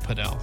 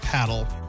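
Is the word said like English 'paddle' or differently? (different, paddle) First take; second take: different; paddle. First: It sounds different from the English word paddle. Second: It sounds like the ordinary English word paddle. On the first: This is how the club itself says the name. "they were pronouncing it padel" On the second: This is how the speakers first assumed it was said. "We assumed it was paddle"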